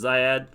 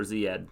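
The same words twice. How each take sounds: First: First syllable of Ziad rhymes with "eye"; long-i pronunciation. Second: First syllable of Ziad rhymes with "see"; long-e pronunciation. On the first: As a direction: say Ziad as ZYE-ad. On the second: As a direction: say Ziad as ZEE-ad. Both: Shown as a demonstration. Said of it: "Is it Ziad or Ziad".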